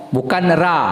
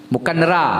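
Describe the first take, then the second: Both takes have the same delivery.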